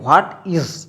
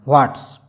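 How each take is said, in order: First: It is said as two full words. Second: It is contracted into one short syllable. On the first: "यहाँ पे आप बोल सकते हैं व्हाट इज" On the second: "इस व्हाट इज का short form होता है"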